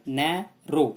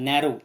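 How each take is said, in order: First: narrow broken slowly as नै, रो; split into two syllables. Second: Said in the usual way. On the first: Shown as a demonstration. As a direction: say narrow in two separate drawn-out beats. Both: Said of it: "इसको दो बार बोलना पड़ता है".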